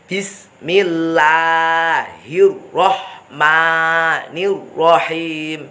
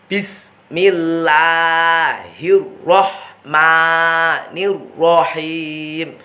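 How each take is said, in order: Both takes have the same delivery.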